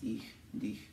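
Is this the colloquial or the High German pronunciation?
High German. It is said in careful standard High German. "High German's ich and dich"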